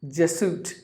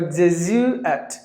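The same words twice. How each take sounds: First: The middle consonant is an s sound. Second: The middle consonant is a z sound. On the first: The speaker calls it wrong. "E S L speakers pronounce it as Jesuit" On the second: The speaker calls it right. "you have to give the Z sound"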